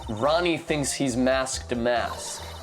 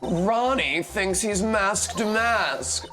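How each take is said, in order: First: It is read in the speaker's plain voice. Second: It is read in a put-on woman's voice. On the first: The speaker calls it wrong. "I should have read that differently" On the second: The speaker calls it right. "as Desiree, rather"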